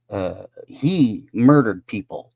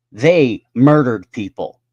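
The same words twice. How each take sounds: First: Said in the usual way. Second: They punched hard and louder, slow; stress on THEY. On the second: Real, not acted. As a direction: lean hard on They, slowly. Contrasting who murdered.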